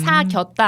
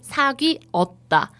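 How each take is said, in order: First: The verb is contracted into fewer syllables. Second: The verb is said with every syllable fully. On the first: The speaker calls it wrong. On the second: The speaker calls it right.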